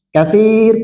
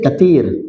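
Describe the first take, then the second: First: It is said the Standard way, with th. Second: It is said the Egyptian way, with t.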